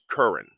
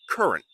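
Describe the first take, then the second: First: The final T sound is dropped completely. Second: A slight T sound is heard at the end. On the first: The speaker calls it wrong. "You shouldn't only say current" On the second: The speaker calls it right. "You should have a little T"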